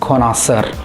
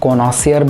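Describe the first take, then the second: First: The word ends with a short 'sur' sound. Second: The word ends with a 'see-yer' sound. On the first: The speaker calls it right. "जो right English pronunciation है word का वो है कॉनॉसर" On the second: The speaker calls it wrong. "बहुत से लोग इसको कॉनॉसियर बोलते हैं"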